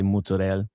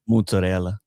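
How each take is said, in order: First: It has Jersey Italian pronunciation with the final vowel dropped. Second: It has Italian pronunciation with the final vowel sounded. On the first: "if you're Jersey Italian, you just cut off the vowel" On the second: "How do you say it like in Italian?"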